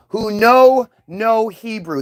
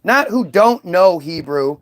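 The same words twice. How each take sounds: First: KNOW NO drawn out slowly; stress on KNOW NO. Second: Said in the usual way. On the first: Retold or imitated. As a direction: stretch "know no" so each word stands apart.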